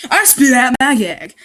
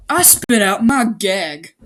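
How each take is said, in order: First: Louder, higher retake of I spit out my gag, "I" stressed; mock dramatic reread. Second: Said in the usual way. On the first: Shown as a demonstration. Reader redoing the opening line with more drama. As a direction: hit it harder the second time. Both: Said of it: "That means he just threw up".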